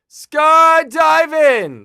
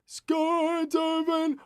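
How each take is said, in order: First: It is yelled out loudly. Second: It is said softly, without yelling.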